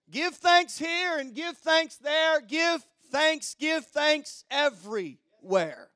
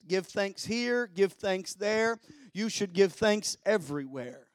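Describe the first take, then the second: First: High, driving pulpit chant; rallying sermon refrain, pitched up; rousing preaching. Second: Said in the usual way. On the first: Real, not acted. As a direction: preach the rhyme out in a raised voice. Repeats rhyme, preaching it harder.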